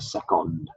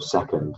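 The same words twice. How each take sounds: First: It is said with a Spanish-sounding pronunciation. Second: It is said with a standard English pronunciation. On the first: This is how a Spanish speaker says it. The speaker calls it wrong. "she'll say things like second" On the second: This is the usual English way to say it. The speaker calls it right. "instead of second"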